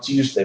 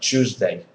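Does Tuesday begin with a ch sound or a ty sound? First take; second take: ty; ch. First: The word begins with a t-y sound. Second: The word begins with a ch sound. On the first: It is an older way of saying it. "So it's not Tuesday" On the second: It is the modern way of saying it. "the more modern pronunciation is different. ... but Tuesday. Ch-"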